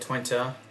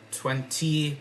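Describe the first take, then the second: First: It has a different, Dutch-sounding ending. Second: It sounds like the English number twenty. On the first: The speaker calls it right. "but Twente" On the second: The speaker calls it wrong. "not twenty"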